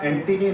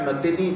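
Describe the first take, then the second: First: The surname begins with an 'en' sound. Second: The surname begins with a 'na' sound. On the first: This is the player's actual name. The speaker calls it right. "Makhaya एंटीनी नाम था" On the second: This is how it was commonly misread here. The speaker calls it wrong. "कई महीने तक साउथ African cricketer का नाम Makhaya नतिनी चलता रहा"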